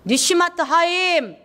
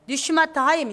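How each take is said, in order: First: 니슈마트 said slowly, high and clear, falling at the end; Hebrew term. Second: Said in the usual way. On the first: Shown as a demonstration. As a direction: sound out 니슈마트 하임 slowly and carefully.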